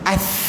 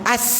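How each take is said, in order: First: The consonant is a 'th' sound, tongue out. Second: The consonant is a plain 's' sound. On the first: The speaker calls it right. "Huruf-huruf lathawiyah ni kena keluar lidah" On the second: The speaker calls it wrong. "Jangan sebut as, tak betul. Tu sin"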